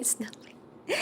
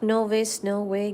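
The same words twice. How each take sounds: First: Whispered. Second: Said in the usual way. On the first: Shown as a demonstration. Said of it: "Oh, no way". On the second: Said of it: "It's a joke".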